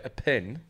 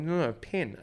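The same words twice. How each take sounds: First: Puzzled question, "pen" heard as "pin"; misheard pen. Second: Put-on higher, insisting on "pen" in a New Zealand accent; frustrated correction. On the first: Retold or imitated. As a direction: echo "pen" with a short i, questioning. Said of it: "people would say". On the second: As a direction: correct them, stressing "pen". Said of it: "the thing that really frustrated me".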